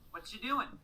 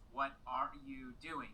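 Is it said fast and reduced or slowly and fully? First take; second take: fast, reduced; slow, full. First: It is said fast with words run together. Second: It is said slowly with every word full.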